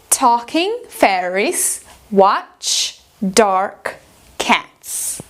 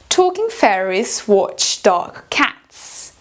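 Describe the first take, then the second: First: It is said in an American accent. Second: It is said in a British accent. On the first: "Em americano" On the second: "vamos fazer ela em britânico primeiro"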